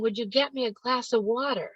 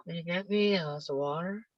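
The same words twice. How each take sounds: First: Every word of "Would you get me a glass of water?" spoken crisp and distinct; clearly enunciated. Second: Soft, fast, slurred mumble; mumbling teenager. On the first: Shown as a demonstration. The clear version of the teen's request, crisply enunciated. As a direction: say it clearly, as they should. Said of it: "But they won't enunciate". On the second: Retold or imitated. Teen mumbling a request to mom, slurred and soft. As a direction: swallow the words like a sulky teen. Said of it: "in this very low, slow way".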